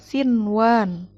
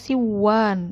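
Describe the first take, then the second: First: The n is clearly pronounced before w. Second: The n merges into the following w. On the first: The speaker calls it right. "Tetap dibacanya sinwan" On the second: The speaker calls it wrong. "nggak boleh dibaca siwan"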